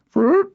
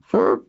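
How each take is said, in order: First: Very high, loud trilled flurp; emphatic high-pitched creature trill; insistent creature chirp. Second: Small throaty creature trill; brief creature call, slightly pitched up; throaty chirp. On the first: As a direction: repeat the animal call insistently. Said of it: "Kisk repeated herself". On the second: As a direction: make a little rolled animal flurp. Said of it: "making a throaty". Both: A narrator's reading.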